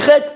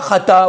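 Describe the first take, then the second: First: It ends with no final vowel. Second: It ends in an 'a' vowel. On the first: The speaker calls it right. "On dit chet, mais le aleph on ne le prononce pas" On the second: The speaker calls it wrong. "On ne dit pas chata"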